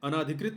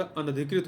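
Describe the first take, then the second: First: "अनाधिकृत" with a long aa after n; wrong form. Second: "अनधिकृत" with a short a after n; correct form. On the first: Teacher rejecting a misspelling, wrong form "अनाधिकृत" with long naa. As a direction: say "अनाधिकृत" as a-naa-dhi-krit. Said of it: "नहीं होता". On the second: Teacher correcting the spelling, right form "अनधिकृत" with short na. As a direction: say "अनधिकृत" as a-na-dhi-krit. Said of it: "होता है". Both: Shown as a demonstration.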